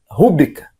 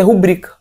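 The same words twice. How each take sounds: First: RÚbrica stressed on the first syllable; rúbrica, punching the opening RÚ; mispronounced rúbrica. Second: RuBRIca stressed on the middle syllable; rubrica, strong second syllable BRI; correct rubrica. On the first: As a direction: say "rúbrica" with the stress wrongly moved onto RÚ. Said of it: "o certo é rubrica". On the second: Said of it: "A sílaba mais forte é bri". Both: Shown as a demonstration.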